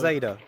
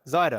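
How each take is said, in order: First: The name does not rhyme with cider. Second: The name rhymes with the word cider. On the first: The speaker calls it wrong. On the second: The speaker calls it right. "like cider"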